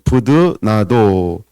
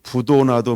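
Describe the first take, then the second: First: The second syllable has the vowel 'eu'. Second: The second syllable has the vowel 'o'. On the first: The speaker calls it right. "발음을 잘해야 되는데" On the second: The speaker calls it wrong. "이러면 안 돼가지고"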